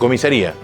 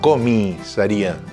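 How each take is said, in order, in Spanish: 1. Se dice rápido y cortada. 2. Se dice despacio y completa. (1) "sino rápida" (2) "No pronunciaba comisaría"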